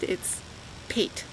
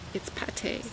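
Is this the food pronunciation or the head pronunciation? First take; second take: head; food. First: It is pronounced the way the head word is. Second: It is pronounced the way the food word is. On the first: It names the top of the head. "If it's top of your head" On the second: It names a food. "If it has the accent, as in the food"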